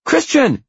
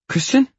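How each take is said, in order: First: Very high, loud shriek of a name; piercingly high sisterly shout. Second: Very high rising greeting; high-pitched, louder female hello; questioning sister. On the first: A narrator's reading. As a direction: yell it down the phone at your brother. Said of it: "she shouts down the phone". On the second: Acted. Sister greets him on the phone.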